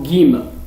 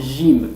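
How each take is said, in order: First: It begins with a hard g sound. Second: It begins with a soft French j sound. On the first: "les Égyptiens, en dialecte, ils le prononcent comme gim" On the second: "ils le prononcent comme jim, comme le français"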